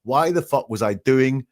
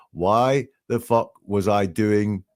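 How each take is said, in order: First: Said in the usual way. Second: Slow, spaced-out retold question; reluctant, pulling out. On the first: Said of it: "he pulls out of that". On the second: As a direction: draw it out as if unwilling to finish. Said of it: "he doesn't want to say it".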